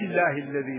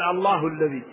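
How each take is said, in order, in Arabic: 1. تنتهي كلمة «الله» بالكسرة. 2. تنتهي كلمة «الله» بالضمة. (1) "وإذا وصل قال العزيز الحميد الله الذي له" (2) "رفع قال الله الذي"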